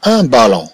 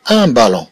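Both takes have the same delivery.

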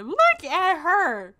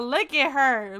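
First: Slow, higher, teasing drawl; sing-song mock gawking; drawn-out teasing. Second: Said in the usual way. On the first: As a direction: stretch it out to tease her. Teasing a sim on screen.

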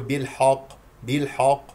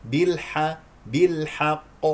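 First: "بالحق" with a dark, backed haa, like bil-hoq; mistaken heavy ح. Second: "بالحق" with a thin, fronted ح vowel; correct light ح. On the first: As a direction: wrongly thicken the ح in "بالحق". (نطق "بالحق" خطأً بتفخيم الحاء) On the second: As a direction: keep ح light before ق in "بالحق". (نطق "بالحق" بحاء مرققة) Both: Shown as a demonstration. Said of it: "الحق لا تستعلي".

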